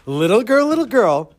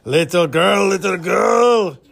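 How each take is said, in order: First: Teasing call, higher and louder; mocking. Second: Louder, drawn-out fishmonger character voice. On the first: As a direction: taunt a little girl playfully. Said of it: "wants to have a good laugh making fun of Bracha". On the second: Acted. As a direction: put on the old fishmonger, slowly calling out. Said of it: "in the same voice as he used for the fishmonger".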